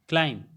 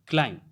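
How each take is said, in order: No difference in how they are said.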